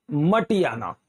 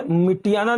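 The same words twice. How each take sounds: First: "मटियाना" with a short a first, MA; correct pronunciation. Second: "मिटियाना" with i in the first syllable; mi-ti-yaa-naa for "मिटियाना"; wrong pronunciation. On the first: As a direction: say "मटियाना" as ma-ti-yaa-naa, lower. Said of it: "मिट्टी से मिटियाना नहीं". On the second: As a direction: say "मिटियाना" starting MI. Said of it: "मिटियाना नहीं". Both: Shown as a demonstration.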